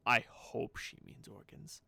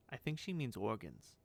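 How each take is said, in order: First: HOPE stretched out and punched; slow it down, leaning hard on HOPE; stress on HOPE. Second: Said in the usual way. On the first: Shown as a demonstration. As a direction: correct yourself with a drawn-out, louder HOPE. Repeats it, swapping think for hope.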